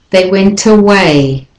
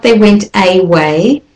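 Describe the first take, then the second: First: They went away with a schwa start on away, uh-WAY; they went away, away begun with a weak uh; right way. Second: They went away with a full AY in away, AY-WAY; they went away, away begun with a long AY; wrong way. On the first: Teacher models they went away with a schwa. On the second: Teacher shows how not to say they went away. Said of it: "So it's not". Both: Shown as a demonstration.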